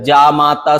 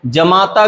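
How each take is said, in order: First: जामाता with long first vowel, jaa-maa-taa; correct pronunciation. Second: जमाता with short first a, ja-maa-taa; wrong pronunciation. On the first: Teacher correcting it, जामाता said with long jaa. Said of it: "सही है". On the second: Teacher showing the mistake, जमाता said with short ja. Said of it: "गलत है". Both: Shown as a demonstration.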